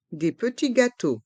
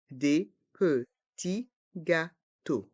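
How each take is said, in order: First: Said in the usual way. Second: Slow "Des petits gâteaux", every syllable apart; learner-paced, split "Des petits gâteaux". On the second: Shown as a demonstration. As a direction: separate each sound of "Des petits gâteaux". Teacher breaks phrase into syllables.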